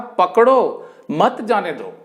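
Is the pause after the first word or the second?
first. The pause comes after पकड़ो.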